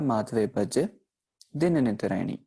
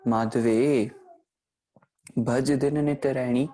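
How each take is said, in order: First: The pause comes right after the second word. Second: The pause comes right after the first word. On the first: We ourselves chant to God day and night. The speaker calls it right. "भज के बाद जो है विश्राम का इस्तेमाल किया जाएगा" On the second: God is being told to do the chanting. The speaker calls it wrong. "हम माधवे को पुकार करके, परमात्मा को ही कह रहे हैं आप जपो"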